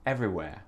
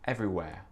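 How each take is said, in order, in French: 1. Le R final est doux, presque omis. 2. Le R final est doux, presque omis.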